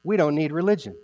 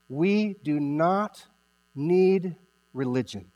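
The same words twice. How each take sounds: First: Said in the usual way. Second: "do not" spelt out slowly, each word weighted; slow, deliberate "We do not need religion"; stress on do not. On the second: Shown as a demonstration.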